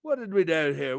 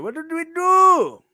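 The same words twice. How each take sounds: First: Said in the usual way. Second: High, slow, stretched silly voice; put-on voice. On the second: Shown as a demonstration. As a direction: pitch it up and drag it out. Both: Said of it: "repeated in a different voice".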